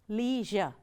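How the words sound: It is said the American way, like 'leezh-er'.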